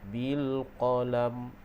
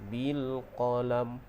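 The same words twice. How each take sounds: Both takes have the same delivery.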